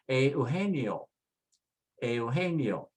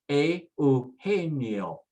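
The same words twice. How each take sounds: First: Eugenio joined up as eh-oo-HEN-yo. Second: Eugenio drawn out slowly, eh-oo-HEN-yo. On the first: Teacher repeats the name for learners, H sound joined up. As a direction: say Eugenio as one word with an H for the G. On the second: Teacher says it now for learners, slow H sound. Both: Shown as a demonstration. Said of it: "takes on an H sound".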